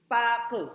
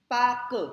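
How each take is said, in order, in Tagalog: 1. Hinahati ito sa dalawang pantig. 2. Hinahati ito sa dalawang pantig.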